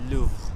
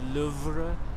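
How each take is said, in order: First: The R is said breathy, like an H. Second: The R is said as a plain R. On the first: The speaker calls it right. "the R sound is like a H in French" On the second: The speaker calls it wrong. "it's not Louvre"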